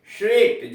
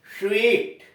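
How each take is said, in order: First: स्वीट with a sharp whistling s; whistled sw sound. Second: स्वीट with a whistle-like sw; whistled sw sound. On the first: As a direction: push air through rounded lips for स्वीट. (स्वीट सीटी बजाने जैसा) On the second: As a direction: round lips and whistle the sw of स्वीट. (सीटी जैसी ध्वनि में स्वीट) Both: Shown as a demonstration. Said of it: "सीटी बजाते समय ध्वनि".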